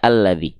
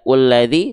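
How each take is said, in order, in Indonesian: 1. Kata ini diawali dengan vokal a. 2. Kata ini diawali dengan vokal u. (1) "tapi kita baca alladzi" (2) "tidak ulladzi"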